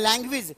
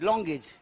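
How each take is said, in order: First: It is said as 'lang-gwej'. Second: It is said as 'long-ej'. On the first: The speaker calls it right. "लैंग्वेज होता है" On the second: The speaker calls it wrong. "मैं उसको बोलता था लॉन्गेज"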